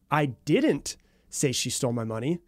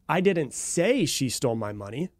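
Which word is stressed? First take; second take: didn't; say. First: The stress falls on the word didn't. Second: The stress falls on the word say. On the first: The speaker is not denying the accusation itself. "implies that I'm not denying the claim or the accusation that she stole my money" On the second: It was hinted or written but not spoken. "you're implying that I might have hinted it, or I might have written it, but I didn't actually verbally say it"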